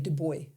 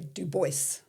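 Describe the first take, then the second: First: The name is said with a European pronunciation. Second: The name is said with an American pronunciation. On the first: "Europeans say Du Bois" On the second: "all Americans say Du Bois"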